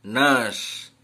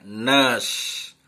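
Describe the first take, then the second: No difference in how they are said.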